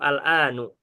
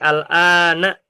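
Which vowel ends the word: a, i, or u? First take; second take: u; a. First: The word ends with a u vowel. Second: The word ends with an a vowel. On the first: The speaker calls it wrong. "Nggak mungkin dibaca" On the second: The speaker calls it right. "al-an ini selalu fathah"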